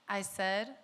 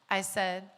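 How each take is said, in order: Both takes have the same delivery.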